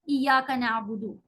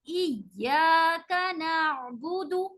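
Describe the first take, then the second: First: The vowel after the y is short. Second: The vowel after the y is long. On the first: The speaker calls it wrong. "इय्याका गलत है" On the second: The speaker calls it right. "या को हम लंबा करेंगे अलिफ के साथ"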